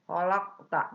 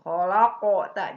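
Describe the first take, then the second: First: The q ends with only a small bounce. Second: A full vowel is added after the q. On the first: The speaker calls it right. "qalqalah sugro. Maka mantulnya itu kecil saja" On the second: The speaker calls it wrong. "jangan kholaqo tak, jangan begitu"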